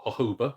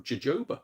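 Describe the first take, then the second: First: Jojoba said with an H sound, "ho-ho-ba"; alternative pronunciation. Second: Jojoba said with a J sound; pronunciation variant. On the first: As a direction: say "jojoba" with H for each J. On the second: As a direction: say "jojoba" with J as in "jolly". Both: Shown as a demonstration. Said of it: "wherever you pronounce it".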